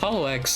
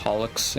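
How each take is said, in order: First: It is said as two parts, Hollow X. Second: It is said as one blended word, Holics. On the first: It sounds like a real name. The speaker calls it right. "Hollow X like actually sounds like something" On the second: It sounds like a cleaning product. The speaker calls it wrong. "the like Japanese um freaking like pronunciation is Holics"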